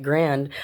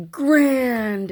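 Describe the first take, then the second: First: Said in the usual way. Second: High, drawn-out announcement of GRAND; GRAND sung out high and long; big reveal. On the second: Retold or imitated. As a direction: announce the top prize like huge letters on screen. Voicing huge letters on screen.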